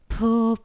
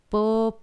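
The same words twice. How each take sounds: First: It is soft and breathy, with weak closure. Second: It is crisp, detached and strongly stopped.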